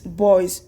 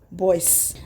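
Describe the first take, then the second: First: The word ends with a buzzing z sound. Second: The word ends with a hissing s sound. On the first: The speaker calls it right. "like in the pronunciation it's boys" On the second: The speaker calls it wrong. "not boys"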